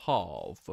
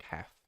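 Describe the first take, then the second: First: "half" with a long ah, falling; Pommy pronunciation. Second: "half" with a short a as in cat; other accent's half. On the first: Shown as a demonstration. Streamer showing the Pommy way, "half" with long ah. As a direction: say "half" as hahf, firmly. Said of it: "the Pommy way". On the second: Retold or imitated. Streamer echoing how chatter says it, "half" as haff. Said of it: "Oh, you say, like".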